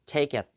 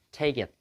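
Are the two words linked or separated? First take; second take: linked; linked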